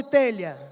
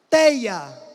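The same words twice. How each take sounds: First: Said in the usual way. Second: TEIA with the LH dropped to a Y glide; popular pronunciation. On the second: Shown as a demonstration. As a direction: say "teia", telha without its LH sound. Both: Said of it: "no lugar de telha".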